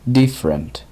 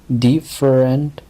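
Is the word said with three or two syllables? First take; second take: two; three. First: The word is said with only two syllables. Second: The word is said with three full syllables. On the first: The speaker calls it right. "solo se pronuncia en dos sílabas ... sino different" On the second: The speaker calls it wrong. "aunque parecieran tres sílabas ... no es different"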